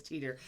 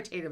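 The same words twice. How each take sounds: First: "teeter" with a long EE vowel; corrected name pronunciation. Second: "tater" with an AY vowel, as in late; mistaken name pronunciation. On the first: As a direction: say "teeter" to rhyme with "meter", dropping softer. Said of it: "I was calling tater". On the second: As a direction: say "tater" to rhyme with "later". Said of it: "but it's teeter". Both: Shown as a demonstration.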